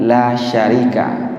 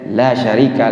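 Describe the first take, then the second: First: The vowel in 'la' is held long. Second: The vowel in 'la' is cut short. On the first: There is no partner. The speaker calls it right. "La di sini la syarika, tidak ada sekutu bagi engkau ya Allah" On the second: There truly is a partner. The speaker calls it wrong. "kita baca pendek"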